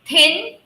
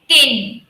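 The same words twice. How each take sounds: First: It starts with a voiceless th sound. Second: It starts with the voiced th of 'the'. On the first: The speaker calls it right. "this is th, th. So please clear the sound" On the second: The speaker calls it wrong. "some people do mix the sound of the here"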